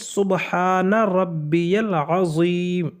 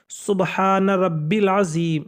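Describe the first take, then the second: First: The middle word is said as longer rabbiyal. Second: The middle word is said as short rabbil. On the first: The speaker calls it right. "वो रब्बिल नहीं है बल्कि" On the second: The speaker calls it wrong. "बाज़ लोग रुकू की तस्बीह इस तरीके से पढ़ते हैं"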